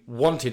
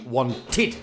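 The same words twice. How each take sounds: First: The -ed ending is said lightly and reduced. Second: The -ed ending is pushed out as a clear syllable. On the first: The speaker calls it wrong. "it won't just be wanted" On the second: The speaker calls it right. "we really enunciate it there... a push"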